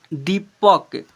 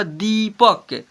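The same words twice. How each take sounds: First: Said in the usual way. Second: दीपक with a drawn-out "dee"; long vowel. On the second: Shown as a demonstration. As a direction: stretch the ee in दीपक slowly. (दीपक में दी को लंबा खींचकर) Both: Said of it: "थोड़ा लंबा उच्चारण करेंगे".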